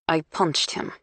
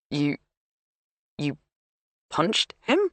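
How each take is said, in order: First: Said in the usual way. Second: Incredulous. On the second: Acted. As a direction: pitch rising in disbelief. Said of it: "his voice rising in pitch with incredulity".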